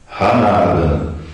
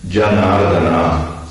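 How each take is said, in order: First: It begins with a harsh h sound. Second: It begins with a j sound. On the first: This is how a Spanish reader would read the spelling. "quando você lê em espanhol, você leria Ranardana" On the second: This is the original Sanskrit pronunciation. "transliterando do sânscrito"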